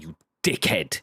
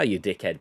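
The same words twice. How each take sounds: First: It is said with venom. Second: It is said playfully, without venom.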